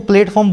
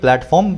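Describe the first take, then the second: First: The first syllable is said like 'plate'. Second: The first syllable is said like 'plat'. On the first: The speaker calls it wrong. "कुछ लोग तो उसको प्लेटफॉर्म बोलते भी हैं" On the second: The speaker calls it right. "बोलोगे प्लेटफॉर्म बिना ई के"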